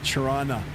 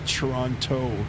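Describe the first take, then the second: First: The second t is dropped. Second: The second t is clearly pronounced.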